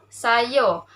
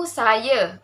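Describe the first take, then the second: First: "saya" said as "sayo"; Kelantan dialect pronunciation. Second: Said in the usual way. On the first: Shown as a demonstration. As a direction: end "saya" on a rounded o. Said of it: "dialek Kelantan juga". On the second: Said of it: "dalam bahasa Melayu baku".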